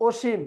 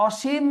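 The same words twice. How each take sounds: First: অসীম as "oshim", close o; close o sound. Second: অসীম as "ɔshim", open ɔ; open o sound. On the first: Teacher offering the other choice, অসীম with close o. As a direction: round the first vowel of অসীম. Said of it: "সেটা ও হয়ে যায়". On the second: Teacher quizzing on negative prefix, অসীম with open ɔ. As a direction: open the first vowel of অসীম. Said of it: "যেই শব্দ থাকে সেরকমই হবে". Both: Shown as a demonstration.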